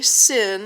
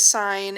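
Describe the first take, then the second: First: The vowel is short, like in 'fin'. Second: The vowel is long, like in 'fine'. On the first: The speaker calls it wrong. "you do not say sin as an abbreviation" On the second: The speaker calls it right. "It really is sine"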